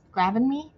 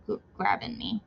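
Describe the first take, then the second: First: Grabbing me with a questioning upward tune; questioning rise. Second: Said in the usual way. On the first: Real, not acted. Unsure of her own word, a rising query.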